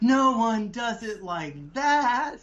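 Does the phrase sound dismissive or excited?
excited. It sounds lively and excited. The idea is new and will be a winner. The speaker calls it right. "You're supposed to say, This is gonna be a winner"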